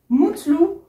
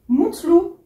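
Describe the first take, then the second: No difference in how they are said.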